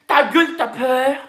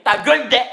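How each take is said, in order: First: Slow, higher mock-Parisian put-down; mocking Parisian "Ta gueule", slow and raised; mock Paris slang. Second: "ta gueule, des" the home way, rising on "gueule"; home-style exclamation against the Paris slang; home-style version, not Paris. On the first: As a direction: draw it out in imitated Paris slang. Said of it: "À Paris, ici, ils disent que". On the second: Shown as a demonstration. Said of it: "Ça veut dire que".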